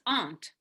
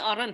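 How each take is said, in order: First: No R sound is pronounced in the word. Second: An R sound is pronounced in the word. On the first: The speaker calls it right. "It's aunt" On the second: The speaker calls it wrong. "Don't say aren't"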